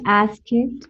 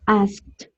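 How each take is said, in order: First: The -ed ending is said as an extra syllable. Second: The -ed ending adds no extra syllable. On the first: The speaker calls it wrong. "we don't say ask it" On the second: The speaker calls it right. "we don't pronounce the E"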